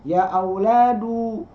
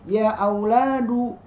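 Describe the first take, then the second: The two takes are said the same way.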